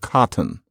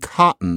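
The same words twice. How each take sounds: First: The t is a clear released t. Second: The t is a glottal stop. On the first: "instead of cotton" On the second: "Why lately are people saying cotton"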